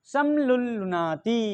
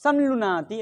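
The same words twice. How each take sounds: First: Slow "समलुलुनाति" with the l held double; stretched, chanted-out "समलुलुनाति" with a long double l; doubled l. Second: "समलुनाति" with sam joined to one l; single l. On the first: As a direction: draw out "समलुलुनाति", doubling the l after sam. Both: Shown as a demonstration. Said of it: "ऐसे कर लीजिए".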